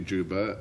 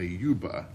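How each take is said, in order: First: The word is said with an English pronunciation. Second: The word is said with a Latin pronunciation. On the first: "not actually Juba" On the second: "notice my modern Latin pronunciation"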